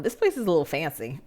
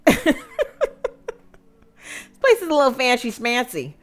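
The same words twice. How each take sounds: First: Said in the usual way. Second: Higher, louder, snooty singsong; hamming up a snooty guest; mock snooty. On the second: [name] teasing the fancy country club, mock snooty.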